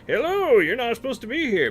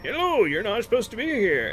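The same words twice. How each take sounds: First: Much higher and louder, faster, hammed-up; exaggerated NPC imitation. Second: Higher, louder mock NPC greeting; imitating game NPC. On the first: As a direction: overplay the tired NPC greeting. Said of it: "you click on him". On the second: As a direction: parrot the same canned line. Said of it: "the next time you click on him".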